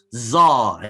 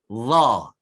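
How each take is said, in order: First: The consonant is a sharp z, with the teeth closed. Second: The consonant is soft, with the tongue between the teeth. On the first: The speaker calls it wrong. "bukan ketat dengan gigi. ... Itu salah dah bunyi dia" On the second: The speaker calls it right. "saya cuba sebut. ... Nampak lidah saya?"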